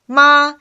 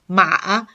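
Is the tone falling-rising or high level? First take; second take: high level; falling-rising. First: The pitch stays high and level. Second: The pitch dips low, then rises. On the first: It means mother. "if you pronounce the first tone" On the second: It means horse. "the third tone"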